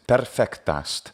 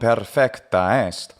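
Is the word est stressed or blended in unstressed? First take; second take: blended; stressed. First: The word est is unstressed and blended in. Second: The word est is stressed and separate. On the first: The speaker calls it right. "It should be de-emphasized because it's an enclitic word" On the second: The speaker calls it wrong. "The emphasis on the est doesn't really make sense"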